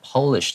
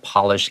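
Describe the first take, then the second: First: It is pronounced as the nationality word. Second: It is pronounced as the verb for shine. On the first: It refers to the country Poland. "如果它 P 是大写，它指的是国家的话，我们会念成 Polish" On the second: It means to make something shine. "you want to make something shine, meaning you have to say polish"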